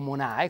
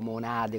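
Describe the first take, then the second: First: The word has no d before the last vowel. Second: The word has a d before the last vowel. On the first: This is how it is said in Rovereto. "come dicono a Rovereto" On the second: This is how the speaker says it himself. "come dico"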